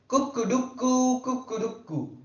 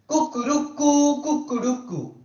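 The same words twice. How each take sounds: First: The crow is soft and gentle. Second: The crow is bolder, moderately strong.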